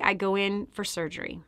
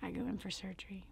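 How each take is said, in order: First: Said in the usual way. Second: "I go in for surgery" whispered, fast and hushed. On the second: Shown as a demonstration. Telling listeners about her surgery, hushed whisper. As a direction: drop to a hushed whisper as the story turns dark. Repeats line, second whispered.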